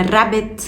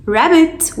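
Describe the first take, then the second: First: "rabbit" with a tapped, rolled R, slow; Arabic rolled R. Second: "rabbit" with a smooth untrilled R, slow; English R. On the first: Teacher offering the class two choices, rolled R in rabbit. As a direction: roll the first sound of "rabbit", slowly. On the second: Teacher offering the class two choices, English R in rabbit. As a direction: start "rabbit" on an unrolled R, slowly. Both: Shown as a demonstration. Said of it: "rabbit ولا rabbit".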